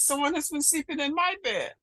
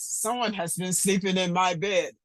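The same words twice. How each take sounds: First: It is said in a medium-sized voice. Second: It is said in a big, deep voice. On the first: "in her middle-sized voice" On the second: "in a great big voice"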